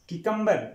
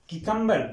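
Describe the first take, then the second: The two takes are said the same way.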